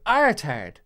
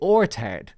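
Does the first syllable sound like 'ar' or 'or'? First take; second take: ar; or. First: The first vowel sounds like 'ar'. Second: The first vowel sounds like 'or'. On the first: This is how Americans say it. "Americans say R instead of or" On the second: This is how the speaker's own accent says it. "So I would say ortard"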